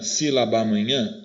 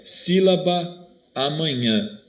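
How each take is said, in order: First: Sílaba amanhã run together as sílabamanhã; two As merged. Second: Sílaba, short gap, then amanhã; slow, separate sílaba... amanhã, both As kept; words kept apart. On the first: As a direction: share one A between sílaba and amanhã. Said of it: "Eu não juntei os dois As". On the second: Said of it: "os dois As do sílaba e do amanhã". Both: Shown as a demonstration.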